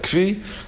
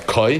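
First: The word is said with a 'v' sound, 'kvee'. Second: The word is said as one syllable, 'koy'. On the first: Yeshivas pronounce it this way. "Yeshiva, it's a Kvi" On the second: Some people pronounce it this way. "some people pronounce it as Koi"

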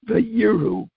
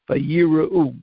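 First: No vowel is sounded after the r. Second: A short vowel is sounded after the r. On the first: It means and they saw. The speaker calls it wrong. "the way I just pronounced them is incorrect, changes the meaning" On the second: It means and they feared. The speaker calls it right. "the shva under the resh is a shva na"

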